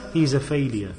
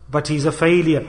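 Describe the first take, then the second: First: Failure dropped low and softer; low, soft verdict. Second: Said in the usual way. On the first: Shown as a demonstration. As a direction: let the verdict sink quietly. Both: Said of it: "What is that person?".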